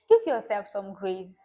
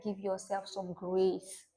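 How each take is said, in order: First: Louder, pressing repeat of Give yourself some grace; emphatic repeat. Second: Said in the usual way. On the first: Real, not acted. Vlogger urging viewers to be gentle with themselves, emphatic. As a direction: lean on Give to drive it home.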